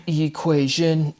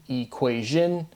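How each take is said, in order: First: "equation" drawn out slowly, syllable by syllable; emphasized word form. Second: Said in the usual way. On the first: Shown as a demonstration. Speaker comparing word forms for viewers, "equation" slowly drawn out. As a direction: stretch every syllable of "equation". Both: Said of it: "emphasizing the word forms".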